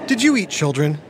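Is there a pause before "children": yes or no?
no. It runs on without a pause before "children".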